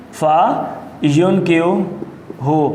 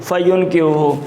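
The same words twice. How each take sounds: First: فینکیوہ drawn out piece by piece with long pauses; slow dictation. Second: Said in the usual way. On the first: Shown as a demonstration. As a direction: dictate فینکیوہ very slowly, in separate parts. Teacher dictates the word piece by piece.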